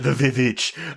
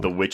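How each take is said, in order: First: The title is said as 'vee-vitch'. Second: The title is said as plain 'witch'.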